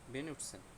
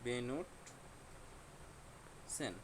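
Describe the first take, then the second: First: The word is said smoothly as one unit. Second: The word is split with a break between syllables.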